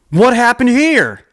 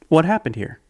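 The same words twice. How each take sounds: First: It is asked in a harsh, angry tone. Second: It is asked in a warm, gentle tone. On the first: The asker has already judged the child. The speaker calls it wrong. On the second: The asker wants to understand. The speaker calls it right.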